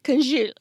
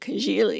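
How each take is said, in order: First: The word is said with its ending cut off. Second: The word is said with its full ending. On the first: This is how people in certain regions say it. "they lop off the whole end of all of the words" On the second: This is how the other person said it. "however you said"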